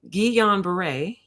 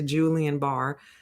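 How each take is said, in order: First: The name is said like ghee-yan bar-ay. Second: The name is said like Julian Barr. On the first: The speaker calls it right. "I have to keep saying it correctly" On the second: The speaker calls it wrong. "my brain will go right back to Julian Barr"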